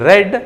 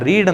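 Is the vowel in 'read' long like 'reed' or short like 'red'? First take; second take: short; long. First: The word has a short 'e' vowel. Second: The word has a long 'ee' vowel. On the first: The speaker calls it right. "She ರೆಡ್ that book" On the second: The speaker calls it wrong. "ಇದನ್ನು ರೀಡ್ ಅಂತ pronounce ಮಾಡಬಾರ್ದು"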